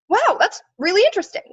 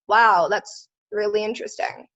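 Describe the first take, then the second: First: It is said in a lively, genuinely excited tone. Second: It is said in a flat, bored, passive-aggressive tone. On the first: The speaker is truly interested. "Genuine excitement" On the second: The speaker is not actually interested. "Passive aggressive, bored"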